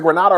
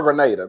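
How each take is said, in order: First: Grenada with AH in the middle, gruh-NAH-duh; "Grenada" with an open "ah" as the stressed vowel; pronunciation option. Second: Grenada with AY in the middle, gruh-NAY-duh; "Grenada" with a long "ay" as the stressed vowel; alternative pronunciation. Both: Shown as a demonstration. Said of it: "Is it Grenada or Grenada?".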